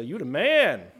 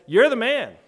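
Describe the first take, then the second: First: Casual praise. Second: Loud, high, pointed accusation; stern accusation. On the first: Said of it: "twenty-first century culture likes to say". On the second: Nathan accusing David, loud and condemning. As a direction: jab the finger with your voice. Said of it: "And Nathan says". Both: Retold or imitated.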